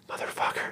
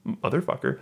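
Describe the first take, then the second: First: A breathy whispered swear instead of a scream. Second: Said in the usual way. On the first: Retold or imitated. Retelling the heroine's alley scream, whispered. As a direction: hush it right down to a whisper, as if mock screaming under the breath. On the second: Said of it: "So she screams".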